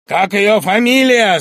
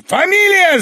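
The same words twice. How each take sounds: First: Louder, slow, pressing question; stern question. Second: Much higher, loud roar of the word Фамилия. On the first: Bormenthal questioning Sharikov, stern and pressing. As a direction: demand it coldly. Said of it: "спросил у него Барменталь". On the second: Bormenthal roaring at Sharikov, terrifying fury. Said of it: "заревел он вдруг". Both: Acted.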